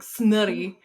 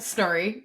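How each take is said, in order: First: The R is rolled hard and strongly. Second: The R is said plainly, without rolling. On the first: "she rolls her R's real hard" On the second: "it's pronounced like it's spelled"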